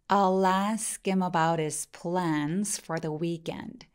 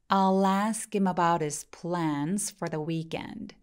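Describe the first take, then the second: No difference in how they are said.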